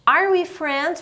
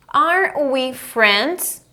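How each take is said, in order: First: Higher-pitched, joined-up question; repeat-after-me model. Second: Very slow, stretched question; drawn-out classroom demo; model for repeating. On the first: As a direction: pitch it up for learners to copy. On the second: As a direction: space out each word for learners. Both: Shown as a demonstration.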